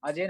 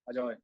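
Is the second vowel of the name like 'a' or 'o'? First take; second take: a; o. First: The second syllable has an 'a' vowel. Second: The second syllable has an 'o' vowel. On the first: This is the name without the Bengali 'o'. The speaker calls it wrong. "अजय नहीं है" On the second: This is the Bengali way of saying the name. The speaker calls it right. "Bengal वाले कर देते हैं ना, ओ लगा देते हैं"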